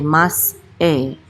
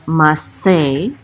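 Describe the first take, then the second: First: A glottal stop separates the two syllables. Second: The s sound runs into the second syllable. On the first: The speaker calls it right. "We we say mas e" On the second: The speaker calls it wrong. "not mas se"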